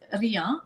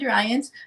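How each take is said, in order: First: The surname is pronounced the French way. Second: The surname is pronounced the English way. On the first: The speaker calls it right. "but it is Rian, Rian. So it's French" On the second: The speaker calls it wrong. "I know you said Ryant"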